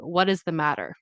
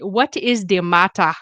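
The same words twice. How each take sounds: First: 'The' begins with a TH sound. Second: 'The' begins with a D sound. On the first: This is the American way of saying it. "Instead of saying" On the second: This imitates a Nigerian accent. "I heard him say"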